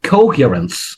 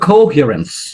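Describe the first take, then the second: Both takes have the same delivery.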